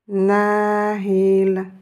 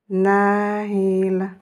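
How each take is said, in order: No difference in how they are said.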